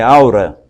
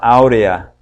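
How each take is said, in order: First: The word has two syllables, ending in -ra. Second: The word has three syllables, ending in -rea. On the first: The speaker calls it right. "É aura, viu?" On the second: The speaker calls it wrong. "tem pessoas que falam áurea"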